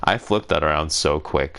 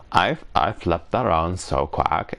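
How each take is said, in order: First: "quick" said properly as kwɪk, short i of sit; corrected word. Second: "quack" said as kwæk, rhyming with back; the slip "quack", with the open a of cat; tongue slip. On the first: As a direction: fix it: "quick" with the short i vowel. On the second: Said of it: "No, I flipped that around so quick". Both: Real, not acted.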